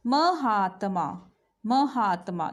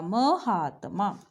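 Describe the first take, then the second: First: महात्मा broken into ma-haa-ta-ma, very slowly; slow syllable by syllable. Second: महात्मा with a half त, said slowly; slow correct pronunciation. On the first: Teacher sounding out महात्मा slowly for pupils. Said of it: "बोल के देखो महात्मा". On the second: Teacher models the right महात्मा slowly. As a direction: draw out महात्मा with त joined to म. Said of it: "त जो है आधा आएगा". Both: Shown as a demonstration.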